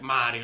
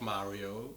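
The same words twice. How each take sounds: First: The r is rolled with the tongue tip. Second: The r is soft and English-like, not rolled. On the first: The speaker calls it right. "in Italian it's r like Mario" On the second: The speaker calls it wrong. "it's not Mario"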